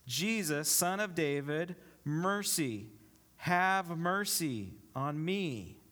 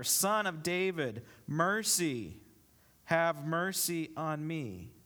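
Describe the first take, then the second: First: Slow, drawn-out plea, lightly called out; understated call, stretching each phrase; mild narrated yell. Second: Drawn-out cry for mercy, mildly raised; slightly louder mock yell. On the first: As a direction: read it as a restrained cry for mercy. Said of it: "And he yells". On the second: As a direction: call it out more insistently, still restrained. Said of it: "but he only yelled louder". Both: A narrator's reading.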